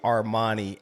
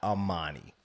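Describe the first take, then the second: First: The name has an R sound after the first vowel. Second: The name has no R sound after the first vowel. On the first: The speaker calls it wrong. "call you Armani and not Amani" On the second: The speaker calls it right. "it's Armani without the R"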